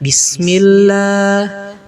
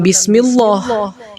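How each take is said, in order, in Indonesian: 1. Huruf L di Allah terdengar tipis. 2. Huruf L di Allah terdengar tebal. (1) "maka yang benar dibacanya bismillah" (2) "maka bukan bismillah"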